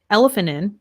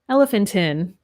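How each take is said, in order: First: The T sound is almost dropped. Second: The T sound is clearly pronounced. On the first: "We almost don't say that T" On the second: "in British English, you might be more likely to pronounce the T"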